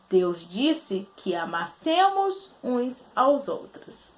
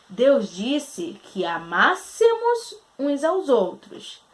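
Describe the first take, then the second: First: "amassemos" with no accent mark, its stress on se; amassemos without the accent. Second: Slow, stress on "amássemos" at má, open a in "amássemos"; "amássemos" stressed on its third syllable, má; amássemos with the accent. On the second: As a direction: read it slowly and lean on má in "amássemos". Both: Shown as a demonstration. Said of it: "A presença do acento outra vez fazendo a diferença".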